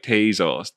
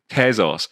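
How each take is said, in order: First: The first syllable sounds like 'tay'. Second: The first syllable does not sound like 'tay'. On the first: This is how Americans say it. "Americans are pronouncing this thing Tezos, right? Tezos, T A Y Z O S" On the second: This is not how Americans say it. "I don't. I pronounce it Tezos"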